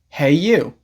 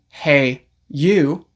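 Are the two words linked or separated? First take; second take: linked; separated. First: The two words are linked together. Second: The two words are said separately. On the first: "you can say" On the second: "Instead of saying"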